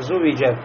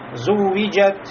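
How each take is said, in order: First: The w sound is short, not doubled. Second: The w sound is doubled with moderate length. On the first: The speaker calls it wrong. "нельзя здесь упустить вот это удвоенность" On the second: The speaker calls it right. "Значит, среднее"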